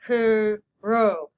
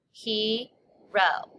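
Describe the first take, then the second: First: "Hero" in two loud muffled beats; whale talk. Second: "Hero" as he, pause, ro; split into syllables. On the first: Teacher counting syllables in whale talk. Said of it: "We whale talk it". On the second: Teacher showing two syllables, clearly split. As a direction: say "Hero" in two separate drawn-out beats. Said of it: "I hear two syllables". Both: Shown as a demonstration.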